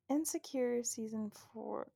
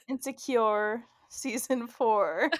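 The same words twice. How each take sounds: First: The last syllable of insecure does not rhyme with four. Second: The last syllable of insecure rhymes with four. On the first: "Does that rhyme? ... No" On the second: "If you say insecure wrong"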